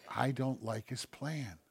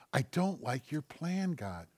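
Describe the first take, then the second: First: Slow and softer. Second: I don't like your plan said higher, straight to God; honest confession addressed to God. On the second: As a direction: turn it into a personal plea, pitched up. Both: Shown as a demonstration.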